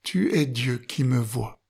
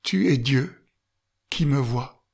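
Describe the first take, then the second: First: It is said without a pause after Dieu. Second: There is a pause after Dieu.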